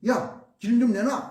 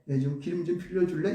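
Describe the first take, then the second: First: It is said as a harsh order. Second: It is said humbly and politely.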